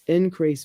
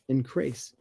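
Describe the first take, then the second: First: INCREASE stressed on IN, as a noun; weight on IN in INCREASE; first-syllable stress. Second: INCREASE stressed on CREASE, as a verb; light IN, heavy CREASE in INCREASE; second-syllable stress. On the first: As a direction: say INCREASE as IN-crease. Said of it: "stress is on the first syllable". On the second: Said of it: "stress the second syllable". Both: Shown as a demonstration.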